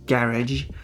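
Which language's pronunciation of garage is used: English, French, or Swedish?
English. It is said with an English pronunciation. "which in English is garage"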